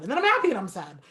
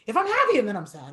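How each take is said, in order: First: Said in the usual way. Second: Quick. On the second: Shown as a demonstration.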